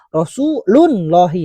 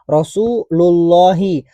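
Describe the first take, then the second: First: An n sound is added after Rasul. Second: Rasul runs straight into Allahi with no n. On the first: The speaker calls it wrong. "enggak kita baca Rasulullahi" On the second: The speaker calls it right. "makanya selalu kita baca Rasulullahi"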